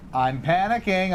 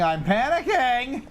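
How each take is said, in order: First: Said in the usual way. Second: Mock panic.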